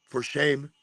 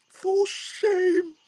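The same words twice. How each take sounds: First: Restrained mock scolding; mock disapproval. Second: Very high, drawn-out scolding; hammed-up falsetto scold breaking into a laugh; exaggerated mock shaming. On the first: Onlooker judging his mirror talk, restrained mock shaming. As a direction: scold in a put-on voice, barely raised. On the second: Onlooker judging his mirror talk, hammed-up shaming.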